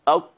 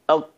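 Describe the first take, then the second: Both takes have the same delivery.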